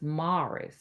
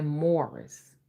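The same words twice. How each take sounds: First: MORRIS with an open "ah" vowel; kids' pronunciation. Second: MORRIS with a rounded "or" vowel; own pronunciation. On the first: Kids correcting Mom, Morris as "MAR-iss". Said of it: "They say". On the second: Mom showing her own way, Morris as "MORE-iss". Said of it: "I say Morris". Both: Shown as a demonstration.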